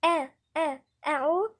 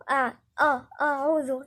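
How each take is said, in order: First: آ and أعوذ opened with a thin, front "a"; light hamza. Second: آه and أعوذ with a thick, dark first vowel; back, emphatic "aw" opening آه and أعوذ; heavy hamza mistake. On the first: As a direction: keep the first vowel of أعوذ light. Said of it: "الهمزة من الحروف المرققة". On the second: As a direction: demonstrate أعوذ wrongly, hamza made heavy. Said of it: "أنا فخمت الهمزة". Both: Shown as a demonstration.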